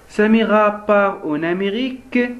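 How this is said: It is said as an emotional exclamation. It expresses a feeling. "Ici on exprime un sentiment"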